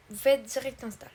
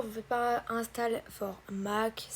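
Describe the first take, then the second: First: Said in the usual way. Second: "pas" leaned on, slowed down; slow warning on "pas" before "install for Mac"; wrong option, stressed. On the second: Shown as a demonstration. Warning viewers off the wrong button, "pas" stressed slowly. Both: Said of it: "ça c'est faux".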